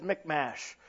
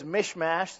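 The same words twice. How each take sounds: First: "Michmash" pronounced MICK-mash, first syllable ending in "k"; "k" pronunciation. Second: "Mishmash" pronounced MISH-mash, first syllable ending in "sh"; "sh" pronunciation. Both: Shown as a demonstration. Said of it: "two different Bible pronunciation things".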